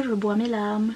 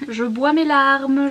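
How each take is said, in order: First: Said in the usual way. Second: Mock tragic.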